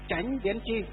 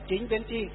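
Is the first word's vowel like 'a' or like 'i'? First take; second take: like 'a'; like 'i'. First: The first word is said as Chánh. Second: The first word is said as Chính. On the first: This is the southern reading. "thì họ đọc là gì" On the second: This is the northern reading. "Miền Bắc chúng ta là"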